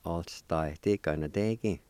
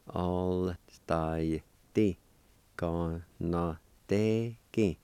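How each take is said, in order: First: Said in the usual way. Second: "All style T. Gon no te ki" in long separate syllables; slow syllable-by-syllable. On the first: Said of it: "say 'em a little bit faster". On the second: Shown as a demonstration. Teacher putting the parts together, slow syllable-by-syllable. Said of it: "practice and go slow".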